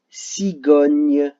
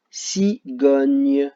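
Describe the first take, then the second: First: Cigogne drawn out slowly, louder; slow syllable demo. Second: Said in the usual way. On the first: Shown as a demonstration. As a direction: stretch cigogne so the sound can be heard. (cigogne très lente et détachée) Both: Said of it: "là où vous entendez le son G".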